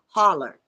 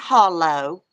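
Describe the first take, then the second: First: The word ends in an 'er' sound. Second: The word ends in an 'oh' sound. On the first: This is how locals say it. "They say holler" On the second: This is not how locals say it. "people around here don't say it's up there in that hollow"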